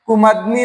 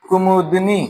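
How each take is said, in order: First: कुमदनी said with no u sound after the m; teacher voicing the error कुमदनी, with a plain a sound in the middle; wrong pronunciation. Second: कुमुदनी with a clear u after the m; teacher settling on कुमुदनी, with the u said fully; correct pronunciation. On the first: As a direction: read out the wrong form कुमदनी, the m running straight into d. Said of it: "नहीं होता है". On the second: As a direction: give the right form कुमुदनी, ku-mu-dni. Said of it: "तो शब्द बन जाएगा". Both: Shown as a demonstration.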